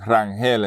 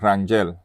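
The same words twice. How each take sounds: First: It is said with Puerto Rican pronunciation. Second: It is said with German pronunciation.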